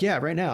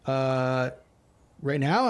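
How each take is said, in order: First: "right now" falling as a firm statement; firm answer. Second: "right now" rising as a question after a stalling "Uh"; stall, then lift "right now" into a query; hesitant question. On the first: Interviewer insisting candidate share his screen, firm falling "right now". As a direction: confirm it, bringing "right now" down at the end. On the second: Candidate asked to share his screen, hesitant question on "right now". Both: Retold or imitated.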